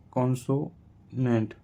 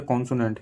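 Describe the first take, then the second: First: "consonant" drawn out in slow, separate parts; syllable by syllable. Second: Said in the usual way. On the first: Shown as a demonstration. Teacher spelling out that Y is a consonant, slow syllable by syllable. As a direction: break "consonant" with a pause before the last syllable. Same word broken into parts.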